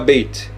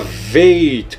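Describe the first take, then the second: First: The name begins with a B sound. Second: The name begins with a V sound. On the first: The letter is written with the inner dot. "com o Dagesh vira Beit" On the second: The letter is written without the inner dot. "com som de V"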